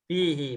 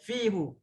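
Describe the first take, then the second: First: The word ends with an 'ee' vowel. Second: The word ends with an 'oo' vowel. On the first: The speaker calls it right. "Bukan fihu ya" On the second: The speaker calls it wrong. "Lebih sulit"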